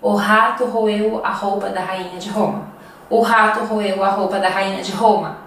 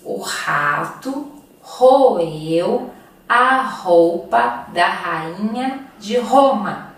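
First: O rato roeu a roupa da rainha de Roma at quick speed; faster. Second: O rato roeu a roupa da rainha de Roma dragged out word by word; very slow repeat. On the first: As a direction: rattle the twister off fast. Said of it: "Mais rápido". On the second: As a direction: spell the twister out slowly. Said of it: "Vamos repetir?". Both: Shown as a demonstration.

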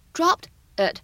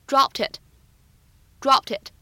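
First: Said in the usual way. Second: "dropped it" as one word, unreleased p, t linked into "it"; linked reading. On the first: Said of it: "放在一起呢". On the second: Shown as a demonstration. Teacher showing students the liaison, "dropped it" run together. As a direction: link the final t of "dropped" onto "it". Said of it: "又有一个连读".

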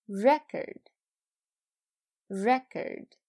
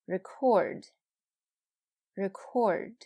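First: "Record" as a noun: REK-erd, said twice; noun stress on first syllable. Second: "Record" with short ri, punched CORD; "Record" as a verb: ri-CORD, said twice; verb stress on second syllable. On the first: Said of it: "前面是名词，后边是动词". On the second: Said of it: "后边是动词". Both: Shown as a demonstration.

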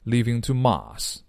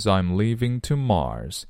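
First: "Mars" as "mahs", with no r; no curled r. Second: Said in the usual way. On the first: Shown as a demonstration. Teacher imitates the singer, r-less "Mars". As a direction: drop the r in "Mars", leaving an open ah. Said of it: "是没有卷舌的". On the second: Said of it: "他们唱这歌的时候是没有卷舌的".

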